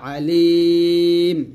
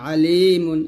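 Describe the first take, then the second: First: The word ends on its final consonant. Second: The word ends with the -un ending. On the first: The reader stops at this word. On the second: The reader continues without stopping.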